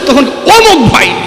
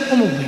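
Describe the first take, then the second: First: It is said louder, with more voice. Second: It is said weakly and quietly.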